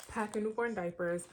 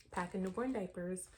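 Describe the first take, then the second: First: Said in the usual way. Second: Hiccups. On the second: Real, not acted. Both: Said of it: "Sorry, I got the hiccups".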